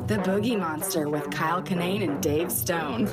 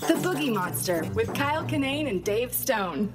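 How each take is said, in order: First: It is said in a sexy, seductive way. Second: It is said in a plain, earnest way.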